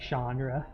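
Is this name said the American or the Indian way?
American. The name is said with an American pronunciation. This is how most Americans say the name. "us dirty Americans have... given up that it's going to be"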